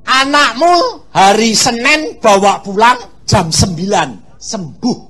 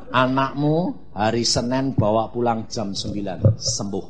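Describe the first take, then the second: First: God's promise. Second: God's promise, softer. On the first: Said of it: "Dia ngomong". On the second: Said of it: "Terus Tuhan bilang". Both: Retold or imitated.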